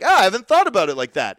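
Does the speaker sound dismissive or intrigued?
intrigued. It sounds intrigued and genuinely interested. The idea is new and worth considering. "yes, I've hit on something interesting"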